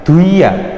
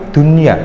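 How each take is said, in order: First: The n sound is merged away, not heard. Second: The n sound is pronounced clearly. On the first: The speaker calls it wrong. "bukan duia" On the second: The speaker calls it right. "tapi dunia"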